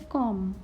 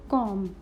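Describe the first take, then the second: First: Comb ending on M, silent B; correct silent-letter pronunciation. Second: Comb with the final B sounded; wrong pronunciation demo. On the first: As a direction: say "comb" with no b sound at the end. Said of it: "We will say". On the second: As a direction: say "comb" voicing the silent b at the end. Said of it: "We will not say". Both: Shown as a demonstration.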